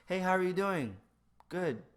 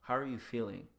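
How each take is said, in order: First: High, loud automatic hello; impulsive greeting. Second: Measured, sincere check-in; present, attentive. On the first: Greeting someone while walking on, loud automatic cheer. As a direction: toss it out on reflex, then move on. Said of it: "saying something that's just an impulse". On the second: Focusing on the other person, attentive everyday-voiced question. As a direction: ask it as if you want the answer. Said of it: "focus on your present and be like". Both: Shown as a demonstration.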